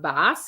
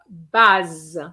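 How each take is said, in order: First: The word ends in an s sound. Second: The word ends in a z sound. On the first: The speaker calls it wrong. "we're not going to have bas" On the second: The speaker calls it right. "we're going to have baz"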